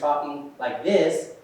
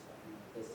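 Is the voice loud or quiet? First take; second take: loud; quiet. First: The voice is louder and raised in volume. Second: The voice is quiet and low in volume. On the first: The talk is aimed at the whole room. The speaker calls it right. "a little louder" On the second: The talk is aimed at one nearby person. The speaker calls it wrong. "I'm just talking like this to this person over here, it's kind of hard to understand"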